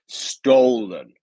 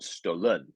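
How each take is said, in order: First: The stress is on the first syllable. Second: The stress is on the second syllable. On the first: The speaker calls it right. "it is the first syllable here. So it's stolen" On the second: The speaker calls it wrong. "not stolen, stolen, which um, just isn't a word"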